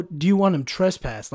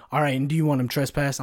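First: Higher, slightly louder retold question; dispatcher's first ask. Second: Imitated dispatcher turning serious; all seriousness. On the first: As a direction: ask it higher, before turning serious. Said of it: "her voice changes". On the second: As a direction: ask it evenly, suddenly all business. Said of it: "in all, all seriousness, her voice changes".

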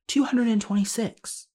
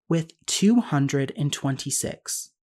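First: TWO hundred and twenty-six pitched much higher; stressed repeat. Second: Said in the usual way. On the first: Real, not acted. Repeats count in disbelief.

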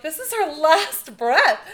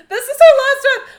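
First: Louder, higher, slow alarmed cry; panicked. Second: Much higher, much louder, near-shrieking panic with a laugh; frantic panic. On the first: The family panicking around her bed, alarmed. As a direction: sound the alarm in disbelief. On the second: The family freaking out at her last breath, frantic and loud. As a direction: let the panic break into a half-laughing shriek. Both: Retold or imitated.

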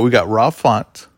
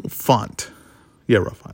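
First: Rob sounding like raw; slurred Rob, almost raw; mouth not working right. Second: Slurred, clumsy mouth; words mushy, like a numb mouth; mouth not working right. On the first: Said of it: "keeps sounding like you're saying raw". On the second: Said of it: "my mouth doesn't work correctly". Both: Real, not acted.

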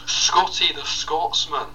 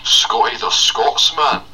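First: Slow, much higher Scottish call; high, drawn-out Scottish brogue; Scotty the Scotsman. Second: Slow, loud Scottish announce, higher; drawn-out Scottish introduction; bellowed slow Scottish voice; Scotty the Scotsman. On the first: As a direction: stretch it out in a Scottish voice. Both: Acted. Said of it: "as a Scottish man called Scotty".

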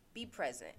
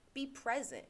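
First: Said in the usual way. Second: Higher, insistent call to be present; emphatic. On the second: Shown as a demonstration. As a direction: say it like a rallying call.

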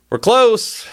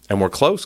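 First: Much higher and louder "We're close"; alarmed repeat. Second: Said in the usual way. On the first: Real, not acted. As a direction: hit "close" with real alarm. Repeated warning, sharply raised.

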